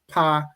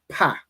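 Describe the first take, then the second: First: The vowel is drawn out and longer. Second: The syllable is short and sharp. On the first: It is the word for mouth. "is mouth" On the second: It names the letter. "is the letter"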